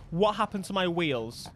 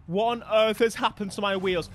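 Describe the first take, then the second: First: Said in the usual way. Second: "What on earth" hit harder in disbelief; emphatic disbelief. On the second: Real, not acted. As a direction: demand it, punching "What on earth". Repeats the question more emphatically.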